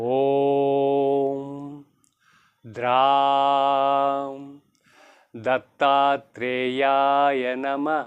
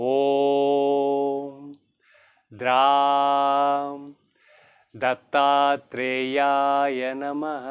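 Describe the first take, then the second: The two takes are said the same way.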